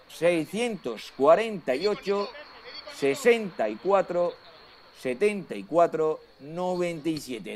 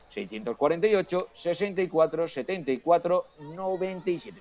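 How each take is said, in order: First: It is said more slowly. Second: It is said at normal speed.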